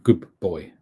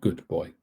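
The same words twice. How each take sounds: First: The d sound blends into a b sound. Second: The d sound is pronounced fully and clearly. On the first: The speaker calls it right. "So it's like good boy" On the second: The speaker calls it wrong. "not good boy"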